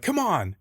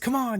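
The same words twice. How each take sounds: First: It sounds harsh and negative. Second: It sounds warm and encouraging.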